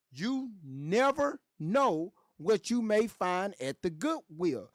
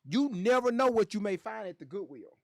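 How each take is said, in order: First: Slow, deliberate, word by word; slow emphasis. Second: Said in the usual way. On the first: Real, not acted. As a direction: draw out each word to drive it home. Repeats advice slowly for emphasis.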